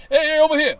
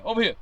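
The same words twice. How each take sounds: First: Louder, higher call across the yard. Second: Said in the usual way. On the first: Acted. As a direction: shout to someone at a barbecue. Calling across a barbecue.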